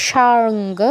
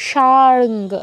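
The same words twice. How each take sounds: Both takes have the same delivery.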